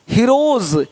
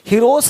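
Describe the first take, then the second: First: The word ends with a soft z sound. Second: The word ends with a hissing s sound. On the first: The speaker calls it right. "ज का sound आ रहा है हल्का सा" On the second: The speaker calls it wrong. "हीरोस नहीं"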